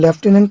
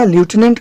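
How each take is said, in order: First: The first syllable sounds like 'lef', British style. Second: The first syllable sounds like 'loo', American style. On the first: "British इसको लेफ्टिनेंट पड़ता है" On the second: "इसका उच्चारण America ल्यूटिनेंट करता है"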